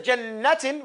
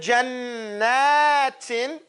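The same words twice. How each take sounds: First: The middle vowel is cut short. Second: The middle vowel is held longer. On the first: The speaker calls it wrong. "You don't say jannatin" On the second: The speaker calls it right. "So you extend it a little longer. You say jannatin"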